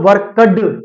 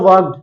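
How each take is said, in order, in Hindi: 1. अंतिम भाग पर ज़ोर है और उसे भारी ढंग से बोला जाता है। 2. अंतिम भाग हल्के और सहज ढंग से बोला जाता है। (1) "एक आपने बोला वर्कड ... ऐसा स्ट्रेस मत दो" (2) "एक मैंने बोला"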